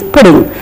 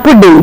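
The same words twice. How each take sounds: First: "pudding" with one light D; correct single D. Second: "pudding" with a stressed double D; wrong doubled D. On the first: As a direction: keep the DD in "pudding" single and unstressed. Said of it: "It is pudding". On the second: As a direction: lean on the DD in "pudding". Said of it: "It is not pudding". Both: Shown as a demonstration.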